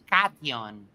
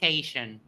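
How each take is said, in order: First: The word is said with a Spanish pronunciation. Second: The word is said with an English pronunciation. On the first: "I pronounce it in Spanish and I pronounce it cation" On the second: "not cation"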